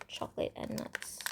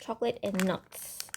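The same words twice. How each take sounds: First: Breathy whispered repeat of the words; hushed, thoughtful whisper. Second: Said in the usual way. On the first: Real, not acted. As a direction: drop to a whisper, musing to yourself. Repeats the pile name whispered.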